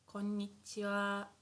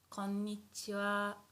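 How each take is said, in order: Both takes have the same delivery.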